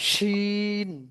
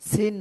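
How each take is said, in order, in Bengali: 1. এটি sh ধ্বনি দিয়ে শুরু হয়। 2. এটি সাধারণ s ধ্বনি দিয়ে শুরু হয়। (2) "সিন না"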